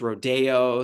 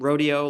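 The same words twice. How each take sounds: First: The word is pronounced the Los Angeles way. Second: The word is pronounced the ordinary way. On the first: It carries a glamorous, in-the-know connotation. "like in Los Angeles it's rodeo, so you can pronounce it a different way" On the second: It names the cowboy event. "the word"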